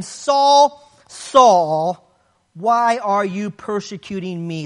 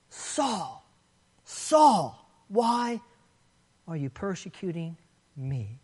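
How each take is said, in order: First: Emphatic call. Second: Saul, Saul said much softer, hushed and drawn out; a grieved, hushed rebuke rather than a shout; soft emphatic rebuke. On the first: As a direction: call his name out like a rebuke from heaven. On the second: Jesus rebuking Saul on the ground, in a soft hushed voice. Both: Acted. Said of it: "The repetition is emphatic".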